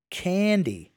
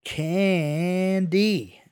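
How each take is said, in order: First: CANDY said high, falling at the end; emphatic repeat. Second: CANDY stretched out very slowly and high; labored. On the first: Johnny repeats the word for Julio, emphatically. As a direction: repeat Candy clearly with a raised, falling tune. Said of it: "Johnny repeated". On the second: Johnny labors the word for blank-faced Julio, drawn out. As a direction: drag out both syllables of Candy, overly clearly. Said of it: "Johnny labored". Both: A narrator's reading.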